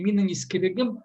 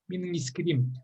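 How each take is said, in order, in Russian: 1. Второе слово сохраняет полный средний слог. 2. Второе слово опускает средний слог. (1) "это уже архаичное, оно как старое слово слышится" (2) "оно теперь мином искрим надо э, говорить"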